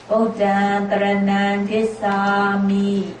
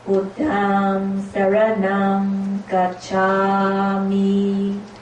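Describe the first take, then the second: First: It is said in Burmese Pali pronunciation. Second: It is said in International Pali pronunciation. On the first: "I will teach you again in the Burmese pronunciation" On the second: "the pronunciation we just recited is in International Pali"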